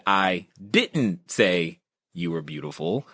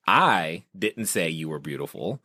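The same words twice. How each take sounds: First: Didn't stretched and lifted; slow take with didn't weighted; stress on didn't, slowed. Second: I lifted and leaned on; I said up front with weight; stress on I. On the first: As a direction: lean slowly into didn't. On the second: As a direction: hit the word I. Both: Retold or imitated. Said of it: "the emphasis on words changes the meaning".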